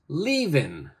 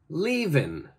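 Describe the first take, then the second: First: The final g sound is left off. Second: The same.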